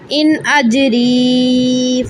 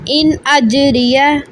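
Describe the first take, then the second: First: It ends in a long vowel held for seconds. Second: It ends in a short syllable, not stretched. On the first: The reading stops at this word. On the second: The reading continues without stopping.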